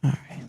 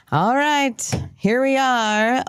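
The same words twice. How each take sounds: First: Said in the usual way. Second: "All right" pitched much higher, falling on "right", as a show kickoff; high, upbeat host "All right"; bright show opener. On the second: Acted.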